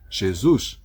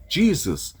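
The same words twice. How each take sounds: First: The name is pronounced with Portuguese sounds. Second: The name is pronounced with English sounds. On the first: This is the name's form in Portuguese. "passou a ser Jesus no português" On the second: This is the name's form in English. "ou Jesus no inglês"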